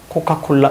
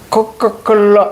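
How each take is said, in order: First: It is said plainly, with relaxed normal articulation. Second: It is said with strained, exaggerated mouth effort. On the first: The word needs no lip contact anyway. The speaker calls it right. "근데 그럴 필요 없죠. 코카콜라 이러면 됩니다" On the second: The speaker thinks avoiding the lips takes special effort. The speaker calls it wrong. "대부분 아이들이 코카콜라 이럽니다"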